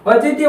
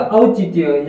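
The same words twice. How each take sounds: First: औचित्य opening on a plain "o"; wrong o vowel. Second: औचित्य opening on a full "au"; correct au vowel. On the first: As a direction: begin औचित्य with "o", not "au". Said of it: "यहाँ पे ओ आया हुआ है". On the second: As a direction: begin औचित्य low, with a clear "au". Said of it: "औ की होगी". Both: Shown as a demonstration.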